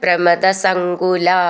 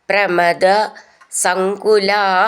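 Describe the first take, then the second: First: The two words are run together as one word. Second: The two words are said as separate words.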